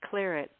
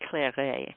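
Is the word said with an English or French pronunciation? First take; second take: English; French. First: The word is said with an English pronunciation. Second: The word is said with a French-style pronunciation. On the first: This is the form the British ended up using. "which is how it got to be claret" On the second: This is the original name of the wine. "It's it's really claret. You have to be French to say that word right"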